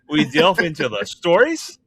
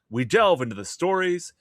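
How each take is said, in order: First: It is said in a put-on Canadian accent. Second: It is said in a plain, neutral accent.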